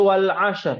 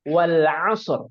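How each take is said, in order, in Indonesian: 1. Bunyi s diucapkan seperti sh. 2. Bunyi s adalah s yang berat dan emfatik. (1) "Kalau sya jadi wal asr" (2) "sod wal asr"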